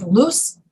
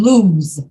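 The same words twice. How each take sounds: First: Loose ending in a hissed S; slow, careful loose, S not Z; voiceless S. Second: Slow, drawn-out lose, Z not S; voiced Z. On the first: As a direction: say loose with an unvoiced S at the end. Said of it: "The same thing with loose and lose". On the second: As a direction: lose ending in a buzzing Z. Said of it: "S E is pronounced like Z E". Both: Shown as a demonstration.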